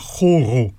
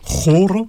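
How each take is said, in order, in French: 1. Le R se fait dans la gorge. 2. Le R se roule avec la langue. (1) "avec un R guttural" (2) "avec un R roulé"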